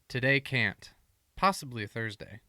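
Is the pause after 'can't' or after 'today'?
after can't. There is a pause right after 'can't'.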